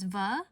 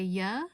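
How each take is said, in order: First: The word begins with a V sound. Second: The word begins with a Y sound. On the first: "It starts with the letter V" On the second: "I pronounce it with like a Y sound"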